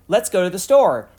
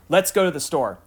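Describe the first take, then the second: First: It sounds like a question. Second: It sounds like a firm statement.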